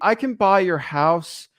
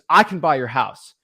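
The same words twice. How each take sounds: First: It sounds hesitant and unsure. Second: It sounds firm and confident.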